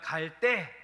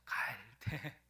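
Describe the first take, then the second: First: The word is said forcefully with a hard consonant. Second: The word is said softly and lightly. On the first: It means the time to go. "갈대를 세게 발음하면" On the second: It means a reed. "갈대를 약하게 발음하면 갈대가 되죠"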